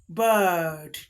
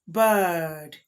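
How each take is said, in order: The two takes are said the same way.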